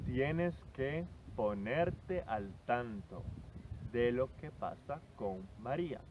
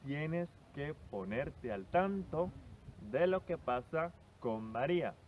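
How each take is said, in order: First: Slow, careful teacher read of the example; slow model sentence. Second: Said in the usual way. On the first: Shown as a demonstration. Teacher reading the example to her student, slowly and clearly. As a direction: spell it out slowly so the student catches every word. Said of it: "teacher models example sentence". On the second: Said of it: "teacher repeats example sentence".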